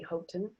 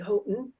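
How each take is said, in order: First: The middle consonant is a clear t. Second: The middle consonant is a glottal stop. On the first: "I don't say Houghton" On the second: "I have that glottal stop"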